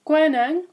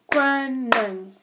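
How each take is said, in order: First: Said in the usual way. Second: "koning" slowly, in two separated syllables; "koning" with a break between its two beats; broken into syllables. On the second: Shown as a demonstration. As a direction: draw out each syllable of "koning". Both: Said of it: "words that have at least two syllables".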